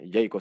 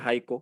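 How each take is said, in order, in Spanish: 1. La primera vocal suena como una 'e'. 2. La primera vocal suena como una 'a'. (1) "la A la pronuncia por la E" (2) "en realidad se pronuncia Jaiko"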